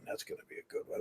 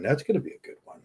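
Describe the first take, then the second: First: Whispered aside, no voice at all. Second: Said in the usual way. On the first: Real, not acted. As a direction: breathe it out as a secret. Repeats the line, then whispers it.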